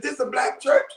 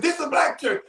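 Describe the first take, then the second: First: "This a black church?" with a rising, asking tune; asking question. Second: "This a black church." with a falling tune, stated as fact; flat statement. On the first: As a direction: let "church" lift up like a real question. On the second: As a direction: drop the pitch on "church" and settle it. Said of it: "he said". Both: Retold or imitated.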